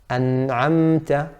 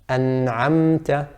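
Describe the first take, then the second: The two takes are said the same way.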